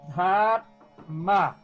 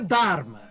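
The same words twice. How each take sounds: First: The first consonant has a breathy puff of air. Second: The first consonant has no puff of air. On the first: The speaker calls it right. "Essa palavra aqui comum" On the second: The speaker calls it wrong. "Isso não é Dharma, que todo mundo fala"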